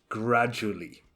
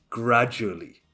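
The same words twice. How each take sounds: No difference in how they are said.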